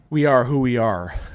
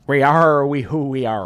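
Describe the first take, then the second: First: It is said in a normal voice. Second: It is said in a pirate voice.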